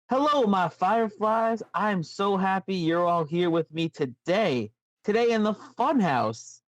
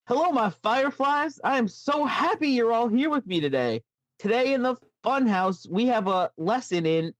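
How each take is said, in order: First: Lightly voiced Bray Wyatt, a touch Southern; a hint of slow, drawled creepy host; World Eater Bray voice. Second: Put-on higher, sing-song kids' show host; sweet, creepy children's host greeting; Bray Wyatt voice. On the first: Podcaster voicing Bray Wyatt's greeting, slipping into a mild Southern lilt. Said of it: "World Eater Bray for a second there". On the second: Retaking the greeting as Bray Wyatt, now higher and sing-song. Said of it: "let me try that. Let me take that again".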